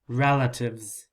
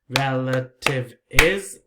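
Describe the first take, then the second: First: The plural ending is a bare z sound. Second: The plural ending is an extra syllable. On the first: The speaker calls it right. "Just the z sound" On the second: The speaker calls it wrong. "four syllables? No"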